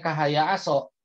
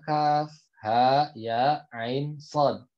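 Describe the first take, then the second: First: The letters are run together as short syllables. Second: Each letter is said separately by its full name. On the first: The speaker calls it wrong. "jangan sampai ada murid sandi yang baca Maryam ayat satu bacanya kahaya aso" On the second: The speaker calls it right. "tapi bacanya adalah ... sesuai dengan nama hurufnya"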